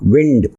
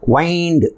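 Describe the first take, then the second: First: The vowel is short, like 'win'. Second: The vowel is long, like 'wine'. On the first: It means moving air. "விண்ட் அப்படிங்கிறதுக்கு அந்த ஐயை வந்து ஷார்ட்டாக pronounce பண்ணணும்" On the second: It means to twist around something. "வைண்ட் அப்படிங்கிறதுக்கு அந்த ஐயை வந்து லாங்காக pronounce பண்ணணும்"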